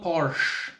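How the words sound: It is pronounced the English way. "It's not Porsche. That that's uh, that's English uh, stuff"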